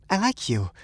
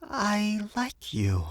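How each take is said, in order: First: High woman's voice, ordinary pace; high, earnest little admission; shy confession. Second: Very slow, high woman's voice; slowly, deliberately confessing in a high voice; slow confession. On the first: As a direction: confess it high without dragging it out. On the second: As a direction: draw out each word, high and deliberate. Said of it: "she said slowly". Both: A narrator's reading.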